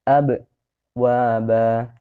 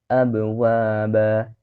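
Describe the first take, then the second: First: There is a pause after the first syllable. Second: The word flows on without any pause. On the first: The speaker calls it wrong. "jedah ya. ... itu tidak dibenarkan ya" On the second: The speaker calls it right. "Yang dibenarkan adalah dilangsungkan saja"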